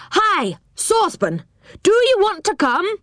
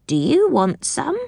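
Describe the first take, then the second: First: High, far-carrying shout up the tree; shouted call. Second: High, rising goblin question; goblin offering. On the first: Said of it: "shouted Moonface". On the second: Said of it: "said the goblin". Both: A narrator's reading.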